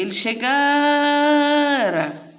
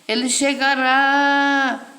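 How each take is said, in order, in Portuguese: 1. A tônica cai na sílaba do meio. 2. A tônica cai na sílaba final. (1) "A sílaba tônica é esta aqui" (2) "Quando bota o acento, a sílaba tônica fica sendo essa"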